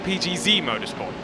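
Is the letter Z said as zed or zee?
zee. The letter Z is said as zee. The speaker calls it wrong.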